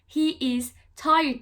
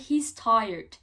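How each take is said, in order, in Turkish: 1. He ve is iki tam kelime olarak söylenir. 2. He ve is tek, kısa bir heceye birleşir. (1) "demek yerine" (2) "He's tired diyoruz"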